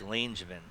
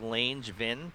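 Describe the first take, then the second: First: The name is said with nearly three syllables. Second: The name is said with two clear syllables. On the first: The speaker calls it right. "it's almost three syllables" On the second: The speaker calls it wrong. "you don't say Langevin"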